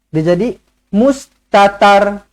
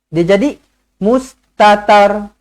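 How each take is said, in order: No difference in how they are said.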